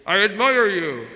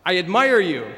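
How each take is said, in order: First: Slow, high, loud call; echoing answer. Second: Loud, projected call; shout to mountain. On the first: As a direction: stretch it out like a mountain echo. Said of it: "the voice answers". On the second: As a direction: call out praise across a valley. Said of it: "he screams to the mountain". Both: Acted.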